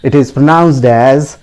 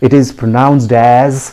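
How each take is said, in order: No difference in how they are said.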